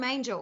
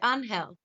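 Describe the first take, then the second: First: It is said with an English pronunciation. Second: It is said with a Spanish pronunciation. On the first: "I call him Angel because that's the way his name is spelt" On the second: "because it's a Spanish name, he's Mexican, he pronounces it Angel"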